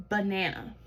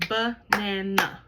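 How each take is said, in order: First: Said in the usual way. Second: Banana broken slowly into three beats, ba-na-na; teacher modelling Banana in slow beats; clapped syllables. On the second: Shown as a demonstration. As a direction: clap Banana beat by beat. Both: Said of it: "Let's clap it out".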